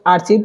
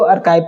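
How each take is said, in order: First: The middle consonant is a ch sound. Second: The middle consonant is a k sound. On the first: The speaker calls it wrong. "तो आर्चिव को" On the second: The speaker calls it right. "आर्काइव पढ़ना चाहिए"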